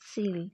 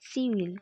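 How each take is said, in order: First: The words are joined into one short syllable. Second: Both words are said separately in full.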